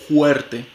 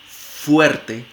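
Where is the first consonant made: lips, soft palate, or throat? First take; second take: throat; lips. First: The first sound is a breathy throat friction. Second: The first sound is made with lip and teeth. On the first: "se puede realizar como una glotal fricativa" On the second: "como una fricativa labiodental sorda típica, como en f"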